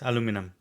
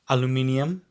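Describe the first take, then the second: First: It is said with four syllables. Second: It is said with five syllables. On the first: "here it is aluminum" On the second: "We say aluminium"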